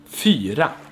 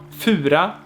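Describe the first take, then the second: First: The vowel is a front rounded 'y' sound. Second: The vowel is a back rounded 'u' sound. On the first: The speaker calls it right. "It's fyra" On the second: The speaker calls it wrong. "It's not fura"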